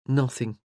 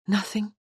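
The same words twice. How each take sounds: First: Low falling "Nothing."; grave. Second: Rising, hushed question. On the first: The Earl answers her gravely, falling on "Nothing.". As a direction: let "Nothing." drop low and final. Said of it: "He had shaken his head gravely". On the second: Morgan asks him quietly, rising on "Nothing?". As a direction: ask "Nothing?" with a lifting, uncertain tune. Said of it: "was all she had asked". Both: A narrator's reading.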